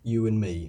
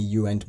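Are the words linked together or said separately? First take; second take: linked; separately. First: The words run together with a reduced 'and'. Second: Each word is said separately with full 'and'. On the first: The speaker calls it right. "put them together naturally" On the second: The speaker calls it wrong. "you show how unnatural that is"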